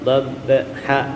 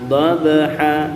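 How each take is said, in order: First: The b is held and stopped tight. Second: The b is released with a light bounce. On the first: The speaker calls it wrong. "ini ditahan, keliru juga" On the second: The speaker calls it right. "Lepasin aja"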